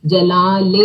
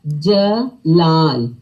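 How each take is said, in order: First: Said in the usual way. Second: جلال very slow, long second aa; drawn-out long aa. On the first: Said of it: "ٹھیک ہے". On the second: Shown as a demonstration. Teacher showing children the long aa in جلال. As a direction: stretch the laal in جلال. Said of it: "کہاں پہ لمبی sound ہے".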